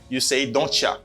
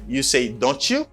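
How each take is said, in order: First: The final word is reduced to 'ya'. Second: The final word is a full 'you'. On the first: This is the informal form. "but for informal one, you say don't ya" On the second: This is the formal form. "For formal one, you say don't you"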